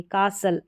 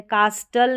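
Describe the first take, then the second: First: कासल with no T, S into L; silent T. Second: कास्टल with a hard T after the S; sounded T. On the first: Teacher correcting the learners' reading, silent T. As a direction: say कासल as KAA-sul. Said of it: "टी जो है silent है". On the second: Teacher showing learners the wrong reading, T sounded. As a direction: say कास्टल as KAAS-tul, T pronounced. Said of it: "कास्टल नहीं पढ़ेंगे". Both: Shown as a demonstration.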